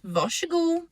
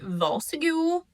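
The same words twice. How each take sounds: First: The r and s merge into one sh sound. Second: The r and s are pronounced as separate sounds. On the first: This is how it is said around Stockholm. "So the R S would be a sh sound" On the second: This is how it is said where the speaker lives. "the consonants are actually pronounced as the actual consonants"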